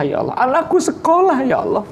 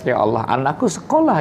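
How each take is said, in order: First: Put-on high, whiny begging to God like a child; hammed-up whimpering prayer, much higher; whining plea. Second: Said in the usual way. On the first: Father begs God for his child's schooling, whining. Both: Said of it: "minta sama merengek".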